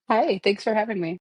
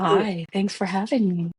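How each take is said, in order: First: The greeting sounds stiff and formal. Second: The greeting sounds soft and sultry. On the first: "I sounded so formal" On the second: "it's the bedroom voice"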